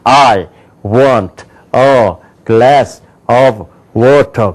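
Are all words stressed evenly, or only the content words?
evenly. Every word gets equal, full stress.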